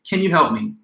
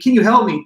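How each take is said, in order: First: The tone is neutral and even. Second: The tone is pleading and desperate. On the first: The listener may react neutrally. "a neutral way of saying it" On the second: The speaker urgently needs help. "it sounds like it's pleading"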